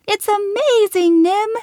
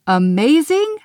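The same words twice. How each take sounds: First: Very high, loud squeal on amazing. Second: High, loud disbelieving Amazing? rising at the end; incredulous. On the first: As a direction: squeal it with pure delight. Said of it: "Lil squealed". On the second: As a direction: throw the word back in disbelief. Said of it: "Glitter's eyes popped". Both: Acted.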